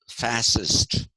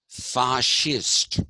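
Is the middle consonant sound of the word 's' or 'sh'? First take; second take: s; sh. First: The middle consonant is said as an 's' sound. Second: The middle consonant is said as a 'sh' sound. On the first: The speaker calls it wrong. "it is not pronounced fascist" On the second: The speaker calls it right. "it is pronounced fascist. Why? Because the root of the word is fasce, F A C H E"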